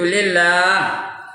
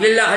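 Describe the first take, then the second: First: The vowel before the final h is stretched long. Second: The vowel before the final h is short. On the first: The speaker calls it right. "nak panjang tu" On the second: The speaker calls it wrong. "Tak betul tu"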